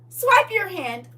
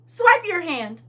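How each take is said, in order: First: Higher, slow robotic command; NPC voice. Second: High, loud NPC command. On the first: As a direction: drag it out like a machine. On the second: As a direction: say it like a scanner NPC. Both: Pretend. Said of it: "my version of the N P C".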